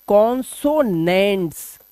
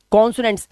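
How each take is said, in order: First: कॉन्सोनेंट्स slowly broken into kon-so-nents; teacher sounding out कॉन्सोनेंट्स slowly, part by part; syllable by syllable. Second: Said in the usual way. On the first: Shown as a demonstration. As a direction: stretch out each syllable of कॉन्सोनेंट्स. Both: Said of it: "क्या बोलते हैं?".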